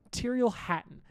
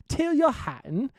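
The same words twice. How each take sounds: First: Said in the usual way. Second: Higher, slow, louder, drawn-out Tyrrell Hatton with a rise on Tyrrell; mock announcer calling Tyrrell Hatton; hammed-up name call. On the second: Shown as a demonstration.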